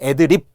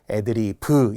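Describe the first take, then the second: First: The word ends in a final consonant. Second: The word ends in an added vowel. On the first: The speaker calls it wrong. "애드립 이렇게 받침으로 적는데요. 그렇지 않습니다" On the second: The speaker calls it right. "애드리브 이렇게 간다는 거고요"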